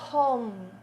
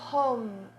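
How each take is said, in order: Both takes have the same delivery.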